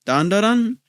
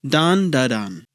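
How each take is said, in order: First: DAN DA DAN rising at the end like a question; questioning tune. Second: DAN DA DAN spaced out, falling at the end; falling statement. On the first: Reviewer repeating the anime title to viewers, questioning. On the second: Reviewer confirming the anime title to viewers, falling statement. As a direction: land DAN DA DAN firmly downward. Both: Shown as a demonstration.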